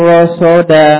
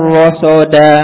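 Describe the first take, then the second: Both takes have the same delivery.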